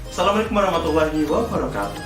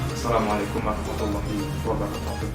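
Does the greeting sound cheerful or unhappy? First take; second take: cheerful; unhappy. First: It is said brightly, with a beaming smile. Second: It is said in a sad or angry tone. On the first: The audience is warmly welcomed. The speaker calls it right. "senyum sumringah karena kita menyambut kedatangan audiens" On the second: The emotion clashes with a welcoming message. The speaker calls it wrong. "Jangan sampai kita menggunakan emosi yang sedih atau yang kayak marah"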